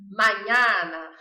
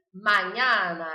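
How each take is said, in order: First: Slow, loud hammed-up Italian mañana; mañana with a hammy Italian flourish; mock Italian. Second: Mañana with the A wide open; loud clear model of mañana. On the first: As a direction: ham it up like an Italian soap star. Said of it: "encarnar Terra Nostra e falar italiano". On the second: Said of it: "com o A bem aberto". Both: Shown as a demonstration.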